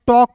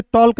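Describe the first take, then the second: First: टॉक with no L before K; silent L. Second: टॉल्क with the L sounded before K; L pronounced. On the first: Teacher gives students the correct reading, silent L in टॉक. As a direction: say टॉक, aw straight into K. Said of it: "टॉक पढ़ते हैं". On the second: Teacher shows students the wrong reading, L heard in टॉल्क. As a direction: say टॉल्क, voicing the L. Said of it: "इसे टॉल्क नहीं पढ़ते हैं". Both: Shown as a demonstration.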